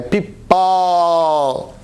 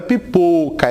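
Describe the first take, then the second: First: Pipó with a long, open "ó". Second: Pipoca mispronounced with a closed "ô"; wrong closed O. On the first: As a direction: stretch the end of pipó very slowly. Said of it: "essa boca mais aberta". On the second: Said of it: "Não é pipoca". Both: Shown as a demonstration.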